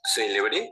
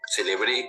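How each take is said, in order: First: The stress is on the first syllable. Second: The stress is on the last syllable. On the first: It means famous. "con el acento al inicio" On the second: It means I celebrated. "con el acento al final"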